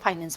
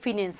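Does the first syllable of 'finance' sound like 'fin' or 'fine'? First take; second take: fine; fin. First: The first syllable sounds like 'fine'. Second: The first syllable sounds like 'fin'. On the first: This is how the older generation said it. "हम तो फाइनेंस बोलते थे" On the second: This is how young people say it today. "जिसे आज के बच्चे फिनेंस बोलते हैं"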